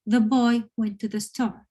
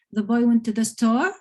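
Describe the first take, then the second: First: STORE dropping at the end as a statement; falling statement tone. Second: STORE lifted at the end as a question; rising question tone. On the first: Teacher showing a sentence as a fact, voice falling on STORE. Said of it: "it's kind of falling at the end". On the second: Teacher showing how a question sounds, voice rising on STORE. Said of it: "you have a rising tone at the end". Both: Shown as a demonstration.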